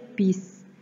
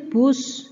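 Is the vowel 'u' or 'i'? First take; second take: i; u. First: The word has an 'i' vowel. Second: The word has a 'u' vowel. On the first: This is how people sometimes say it. "tapi kita kadang bacanya bis" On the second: This is how the word is written. "Tulisannya bus ya"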